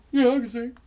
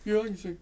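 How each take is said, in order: First: Higher, louder eager Bob voice; Bob's voice. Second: Bob's voice. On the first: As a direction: pop it up high like Bob. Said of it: "That's the way he talked". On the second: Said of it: "He talked just like that". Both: Retold or imitated.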